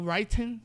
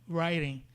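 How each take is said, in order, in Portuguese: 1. O som do meio é um t claro e nítido. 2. O som do meio é um tepe suave, parecido com r. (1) "no inglês mais britânico, né? Tem um som de T mesmo" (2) "na pronúncia americanizada... O T acaba parecendo um som de R"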